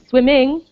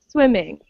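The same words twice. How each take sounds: First: The stress is on the second syllable. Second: The stress is on the first syllable. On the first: The speaker calls it wrong. "you will never hear swimming" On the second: The speaker calls it right. "we stress the first syllable"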